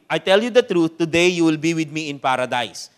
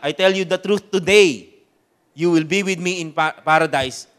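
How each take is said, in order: First: The pause comes before the word today. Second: The pause comes after the word today.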